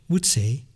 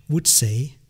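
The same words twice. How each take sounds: No difference in how they are said.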